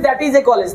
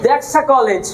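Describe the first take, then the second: First: 'That is' is said as two separate words. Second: 'That is' is run together into one syllable. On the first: "সারা জীবন বলেছি দ্যাট ইজ a college"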